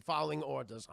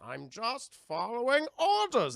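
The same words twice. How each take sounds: First: Said in the usual way. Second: Slow, louder, higher lumbering brute; dumb Bane voice. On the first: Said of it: "That's about, like". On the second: Retold or imitated. Mocking Bane repeating orders, slow hammed brute voice. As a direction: drag it out like a dim henchman.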